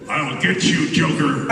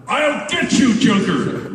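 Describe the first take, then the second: First: Said in the usual way. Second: A louder, higher take. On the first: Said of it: "you know". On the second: Shown as a demonstration. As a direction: raise the volume on the threat. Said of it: "Little louder".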